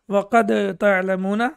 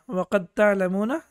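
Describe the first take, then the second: First: The d is heard with a bounce. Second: The d merges into the t, unheard. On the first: The speaker calls it wrong. "The wrong pronunciation will be" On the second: The speaker calls it right. "dal will not be pronounced"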